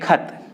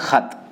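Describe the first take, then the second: First: It starts with an aspirated k stop. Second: It starts with a rasping throat fricative. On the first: "इसे हम बोलेंगे खत" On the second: "जो उर्दू बोलते हैं और वो अपने एक्सेंट में बोलेंगे"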